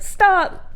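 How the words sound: It is said as forcefully as possible.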